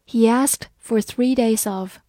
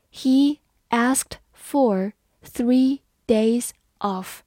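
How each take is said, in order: First: Said in the usual way. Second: Slow, word by word; slow reading. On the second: Shown as a demonstration. Teacher reading slowly for students to follow. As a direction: spell it out slowly for learners. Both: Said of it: "好，慢慢来读。".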